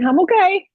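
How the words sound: It is said a little afraid.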